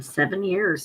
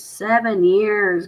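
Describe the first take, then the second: First: Said in the usual way. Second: "Seven years" drawn out slowly, higher; emphatic repeat. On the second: Real, not acted. Telling viewers about never paying late, "Seven years" stressed emphatically.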